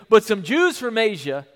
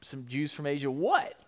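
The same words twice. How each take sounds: First: Said in the usual way. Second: Softer, questioning repeat; puzzled quiet echo. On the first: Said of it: "he goes". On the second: Shown as a demonstration. Preacher puzzling over Paul's broken phrase, quietly. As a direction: drop the voice and wonder aloud.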